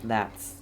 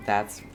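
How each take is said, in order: Both takes have the same delivery.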